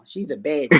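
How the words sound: It is said in a disgusted, dismayed tone. The woman is unattractive. "if she dirty, be like, oh no"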